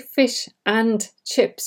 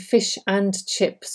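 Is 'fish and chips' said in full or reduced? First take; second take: full; reduced. First: Every word is pronounced fully and separately. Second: The middle word is reduced and linked. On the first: The speaker calls it wrong. "you simply just don't sound very natural. You're pronouncing every word" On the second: The speaker calls it right. "saying fish and chips or should have rather than"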